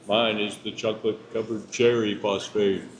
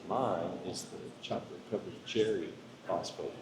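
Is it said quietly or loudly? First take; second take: loudly; quietly. First: It is said more loudly. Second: It is said at a normal, quieter volume.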